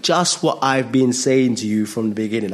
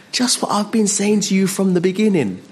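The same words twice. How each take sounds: First: Said in the usual way. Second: High, emphatic reply; high insistent answer; Jesus. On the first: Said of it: "And so Jesus says". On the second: Acted. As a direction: pitch it high and fall away at the end. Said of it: "and he says".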